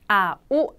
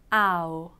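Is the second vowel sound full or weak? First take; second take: full; weak. First: Both vowel sounds are said with full strength. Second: The first sound is strong, the second weak. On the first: The speaker calls it wrong. "이런 식으로 아우 아닙니다" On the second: The speaker calls it right. "두 번째 소리는 약하게 발음이 되다 보니까"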